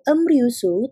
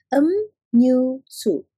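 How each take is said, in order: First: The second syllable begins with an R sound. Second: The second syllable begins with an N sound. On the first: The speaker calls it wrong. "tidak dibacanya sebagai emryusu" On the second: The speaker calls it right. "tetapi dibacanya sebagai emnyusu"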